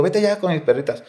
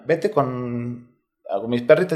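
First: "Vete ya" pushed higher, urging her to go now; urgent repeat. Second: Said in the usual way. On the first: Retold or imitated. Repeating it to his daughter, higher and more urgent. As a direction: press the daughter to leave, pitch up on "vete".

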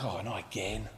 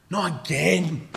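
First: Very low, soft groaned aside; quiet, sinking exasperation; weary dismay. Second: Slow, drawn-out exasperated complaint; emphatic, long-drawn weary protest; exasperated dismay. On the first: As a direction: sigh it under your breath. Weary disciple sees another crowd. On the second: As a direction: stretch it out in fed-up disbelief. Disciple's repeated, stronger complaint. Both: Acted.

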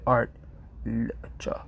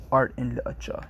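First: Art, literature said posh, with the and dropped; clipped posh art, literature. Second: Said in the usual way. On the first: Shown as a demonstration. Streamer showing chat the right posh way. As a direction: clip it as art, literature, leaving out and. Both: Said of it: "You don't say art and literature".

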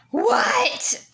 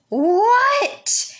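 First: High-pitched loud "What?"; loud call. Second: Loud, high, irritated "What?"; angry yell. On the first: Older sibling answering a call from sister, calling out loudly. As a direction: call it out high to someone elsewhere. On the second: Older sibling got no reply, yelling back angrily. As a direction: yell it louder, fed up at no reply. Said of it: "in a really, really angry, loud voice". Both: Retold or imitated.

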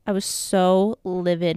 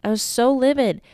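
First: Said in the usual way. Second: "I was so livid" pitched up, stress falling on "livid"; "livid" hit hard, remembering how angry it felt. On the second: Real, not acted. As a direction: lean into "livid" with rising heat. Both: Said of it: "and this is such a tangent".

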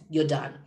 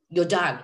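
First: Said in the usual way. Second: You're done repeated and louder, leaned on hard; stress on You're. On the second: Shown as a demonstration. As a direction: hit You're on the repeat so it lands as final.

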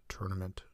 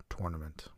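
First: Tournament starting like turn; TUR-nament. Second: Tournament starting like tore; TOR-nament. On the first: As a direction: say tournament with an er vowel. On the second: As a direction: say tournament with an or vowel. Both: Shown as a demonstration. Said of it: "these words that you don't really know".

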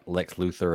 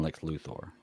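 First: Luthor as LOO-ther; Luthor, rhyming its end with "mother"; first pronunciation variant. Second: Luthor as LOO-thor; Luthor, ending like the name Thor; second pronunciation variant. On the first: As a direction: say Luthor with a reduced "-ther" ending. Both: Shown as a demonstration. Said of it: "I say it different ways".

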